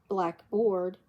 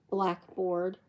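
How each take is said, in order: Both takes have the same delivery.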